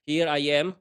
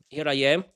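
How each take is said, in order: Both takes have the same delivery.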